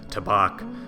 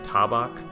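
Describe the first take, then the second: First: The stress falls on the second syllable. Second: The stress is balanced across both syllables. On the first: "with an accent on that second part" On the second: "it's more balanced. So something perhaps like tabak"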